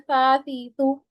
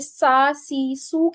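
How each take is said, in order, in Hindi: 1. s नरम है और उसमें सीटी जैसी फुफकार नहीं है। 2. s सख़्त है और उसमें सीटी जैसी फुफकार है।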